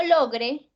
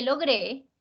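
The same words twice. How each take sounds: First: "logre" con fuerza en LO; acento en la penúltima. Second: "logré" con fuerza en GRÉ; acento en la última. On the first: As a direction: carga la primera sílaba de "logre". ("logre" como palabra grave, LO-gre) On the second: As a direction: carga la sílaba final de "logré". ("logré" como aguda, lo-GRÉ) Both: Shown as a demonstration. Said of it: "No es lo mismo logre que logré".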